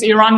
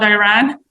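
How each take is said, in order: First: "Iran" as ee-RAHN; "Iran" with an ee start and an open ah; native pronunciation. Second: "Iran" as eye-RAN; "Iran" starting like "eye", ending like "ran"; mispronunciation. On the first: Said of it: "not Iran". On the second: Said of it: "one of my missions I say". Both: Shown as a demonstration.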